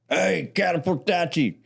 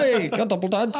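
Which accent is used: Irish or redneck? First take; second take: redneck; Irish. First: It is said in a rural redneck accent. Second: It is said in an Irish accent. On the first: "old rednecks, like" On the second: "in like an Irish accent?"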